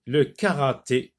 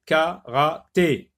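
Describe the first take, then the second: First: Said in the usual way. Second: "karaté" slowly cut into three separate syllables. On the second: Shown as a demonstration. Teacher helping pupils locate the É, "karaté" syllable by syllable. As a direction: sound out "karaté" beat by beat. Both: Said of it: "Dans la dernière syllabe".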